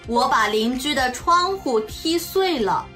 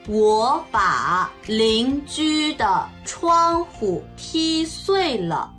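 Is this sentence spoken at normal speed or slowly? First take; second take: normal; slowly. First: It is spoken at a normal pace. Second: It is spoken slowly. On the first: "中国語1 回、" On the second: "ゆっくり中国語1 回、"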